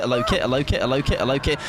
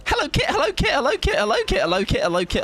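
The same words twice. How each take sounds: First: Said in the usual way. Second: Squeaky greeting that sinks a little with every repeat; very high hello sliding down. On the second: Shown as a demonstration. Greeting a viewer on request, very high and sinking. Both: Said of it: "say hello to me".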